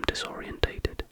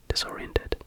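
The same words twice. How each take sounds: First: Disorientated with an extra syllable, dis-or-i-en-TAY-ted; mispronounced word. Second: Disoriented said properly as dis-OR-ee-en-ted; corrected pronunciation. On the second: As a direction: whisper Disoriented without the extra syllable. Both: Real, not acted.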